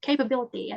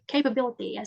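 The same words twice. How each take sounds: First: The vowel after k has an 'i' glide. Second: The same.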